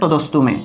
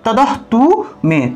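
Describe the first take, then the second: First: The cluster is kept joined as one st sound. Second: The cluster is split, with an h sound before t. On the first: The speaker calls it right. "যদি না ভাঙেন তাহলে তদস্তু মে" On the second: The speaker calls it wrong. "যদি আপনারা ভাঙেন তাহলে সেই ক্ষেত্রে উচ্চারণ কি হবে?"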